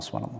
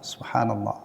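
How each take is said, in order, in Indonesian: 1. Diucapkan sangat cepat dan tidak jelas. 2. Diucapkan pelan dengan setiap bunyi jelas. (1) "Itu akan lebih bagus daripada" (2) "jelas terucap kalimat sempurna"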